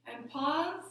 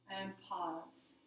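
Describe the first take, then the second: First: Rising hold at the top of the breath; suspended rising cue. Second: Very soft, lowered voice; hushed settling cue. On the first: Yoga teacher holding the class after inhaling, rising lilt. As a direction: lilt upward and leave it hanging. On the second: Yoga teacher resting the class after exhaling, hushed and low. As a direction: sink down and rest at the bottom of the breath. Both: Shown as a demonstration.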